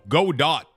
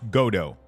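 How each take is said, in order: First: The name is said as the words go dot. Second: The name is said with a French pronunciation. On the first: The name is read as the words go and dot. "So go dot, you know, dot pixel go" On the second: The name is treated as a French word. "if it's a French word, then it's pronounced Godot"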